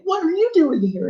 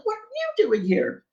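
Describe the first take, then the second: First: Much higher, delighted question; giddy, high-pitched greeting; excited greeting. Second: Even higher, delighted echo of the question; squealing echo of the greeting; excited echo. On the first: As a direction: ask it like meeting an old friend. Joyful meeting in the museum. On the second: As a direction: throw the question straight back, thrilled. The other woman echoes back. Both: Retold or imitated.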